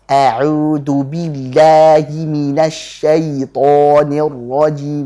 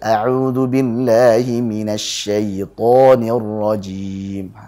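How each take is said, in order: First: It is said with exaggerated, forceful articulation. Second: It is said with relaxed, easy articulation. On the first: The speaker calls it wrong. "ini berlebih-lebihan ini" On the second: The speaker calls it right.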